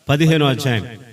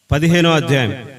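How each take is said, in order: Both takes have the same delivery.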